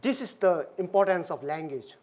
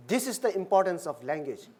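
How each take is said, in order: Both takes have the same delivery.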